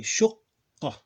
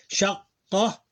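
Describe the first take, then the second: First: Shuqqa with a rounded u and doubled q; corrected pronunciation. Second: Shaqqa with open a vowel; wrong vowel first try. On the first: Teacher corrects himself, saying shuqqa clearly. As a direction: say shuqqa, short u, hold the qq. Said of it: "Pronounce it like shuqqa". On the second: Teacher's slip before correcting the vowel. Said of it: "I mean, sorry". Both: Shown as a demonstration.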